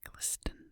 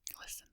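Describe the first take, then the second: First: The T sound in the middle is pronounced. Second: The T sound in the middle is silent. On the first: The speaker calls it wrong. "It's not glisten" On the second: The speaker calls it right. "it doesn't really make a T noise"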